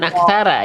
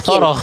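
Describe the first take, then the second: First: The final syllable is light and thin. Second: Both last syllables are heavy and dark. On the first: "jangan aksara ya" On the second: "Bukan aksoro"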